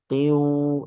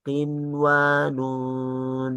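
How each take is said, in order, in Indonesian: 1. Bunyi n menyatu dengan w setelahnya. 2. Bunyi n diucapkan dengan jelas sebelum w. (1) "Tidak dibaca qiu" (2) "melainkan izhar"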